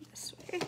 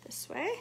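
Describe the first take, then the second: First: Soft whispered aside; whispering. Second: Said in the usual way. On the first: Real, not acted. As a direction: breathe the words, no voice. Folding the wrap, whispered repeat.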